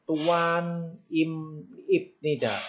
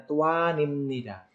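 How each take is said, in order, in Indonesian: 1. Konsonan sebelum nida adalah bunyi b. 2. Konsonan sebelum nida adalah bunyi m. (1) "ada tulisan seperti" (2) "membacanya Tuan Imnida"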